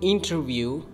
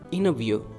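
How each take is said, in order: First: The T after the N is clearly pronounced. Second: The T after the N is dropped. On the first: The speaker calls it wrong. "You cannot say interview" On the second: The speaker calls it right. "you might say interview"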